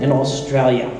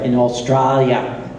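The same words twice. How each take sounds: First: It is said in the speaker's plain accent. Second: It is said in an imitated Australian accent. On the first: The speaker calls it wrong. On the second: The speaker calls it right.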